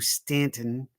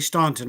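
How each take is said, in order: First: The first vowel sounds like in 'can'. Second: The first vowel sounds like in 'dawn'. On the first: The speaker calls it right. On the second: The speaker calls it wrong.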